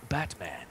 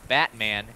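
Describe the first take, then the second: First: It is said with a Spanish-sounding accent. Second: It is said with an American English accent. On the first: "It's like Batman" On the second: "It's not like American like Batman"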